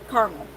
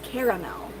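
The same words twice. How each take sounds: First: The word is said with two syllables. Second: The word is said with three syllables. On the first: "This is a two caramel" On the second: "on the East Coast and in other English-speaking countries, it's caramel. Fancy schmancy"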